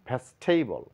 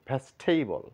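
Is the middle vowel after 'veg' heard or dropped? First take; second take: dropped; dropped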